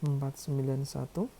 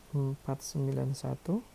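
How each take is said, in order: Both takes have the same delivery.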